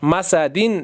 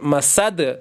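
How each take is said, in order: First: The word ends with an added -in ending. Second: The word ends abruptly on the d. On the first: The reader continues without pausing. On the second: The reader pauses at this word.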